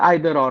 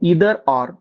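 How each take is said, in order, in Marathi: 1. पहिला स्वर 'eye' सारखा वाटतो. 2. पहिला स्वर 'ee' सारखा वाटतो. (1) "आपण ग्रामीण भाषेमध्ये आयदर ऑर म्हणतो" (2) "ऍक्च्युली त्याचं जे करेक्ट प्रोनाउन्सिएशन आहे ते इदर ऑर"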